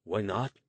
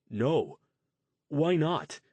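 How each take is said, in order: First: Flat, louder echo with a rising end; glaring throw-back. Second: Shocked disbelief. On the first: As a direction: toss his words back at him, irritated. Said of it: "Luke glared at him". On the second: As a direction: pitch jumps high on why, louder. Jason shocked, eyes widened. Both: Acted.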